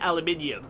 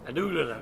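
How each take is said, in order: First: It is said with five syllables, British style. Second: It is said with four syllables, American style. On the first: The speaker calls it right. "We would be right in saying aluminium" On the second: The speaker calls it wrong. "Our American friends would say aluminum"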